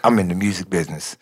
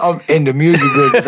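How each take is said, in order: First: Low, quick, played-down retold boast; understated introduction. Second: Higher, quick, marvelling repeat; amazed excitement. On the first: Newcomer retelling how he met [name], understated introduction. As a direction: say it low and fast, almost to yourself. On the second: Real, not acted. Newcomer marvelling at his first week in the business, amazed excitement. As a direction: say it quickly, lifted with disbelief.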